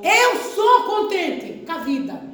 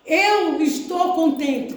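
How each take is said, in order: First: SOU stressed, slow and firm; corrected confession. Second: ESTOU said slowly as the word to avoid; slow demonstration with "estou" drawn out; wrong example. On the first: Pastor corrects the congregation's wording, slow stress on "sou". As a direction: lean slowly on "sou" as the right word. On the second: Pastor shows the congregation the wrong confession, slow on "estou". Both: Shown as a demonstration. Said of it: "tá errado".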